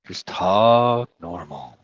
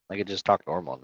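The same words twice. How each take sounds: First: Slow, lazy demonstration of calm talk; slow, drawn out. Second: Relaxed, softer speaking voice; just talk normally, no need to yell; quiet normal talk. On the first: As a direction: drag the words out slowly. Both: Shown as a demonstration.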